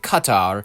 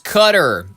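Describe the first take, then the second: First: It is said with an English pronunciation. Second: It is said with an American pronunciation. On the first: "they heard English people pronouncing it Qatar" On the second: "Americans got that dumb pronunciation"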